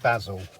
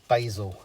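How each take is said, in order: First: The word is said in a non-American way. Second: The word is said in an American way.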